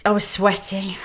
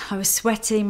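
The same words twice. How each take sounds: First: Breathy whisper, almost unvoiced. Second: Said in the usual way. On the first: Real, not acted. She relives bidding at auction in a whisper. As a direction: breathe it out like the panic is back.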